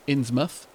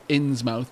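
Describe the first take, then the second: First: The ending is reduced, not a full 'mouth'. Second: The ending is a full 'mouth' sound. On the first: This is how it is actually said. The speaker calls it right. "but it would be pronounced Innsmouth" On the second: This is how the spelling looks. The speaker calls it wrong. "it might be spelled Innsmouth"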